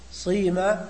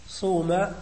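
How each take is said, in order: First: The first vowel is a pure i sound. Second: The first vowel is a pure u sound. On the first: "ويجوز إخلاص الكسر" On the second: "إخلاص الضم"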